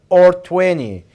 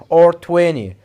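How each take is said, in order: No difference in how they are said.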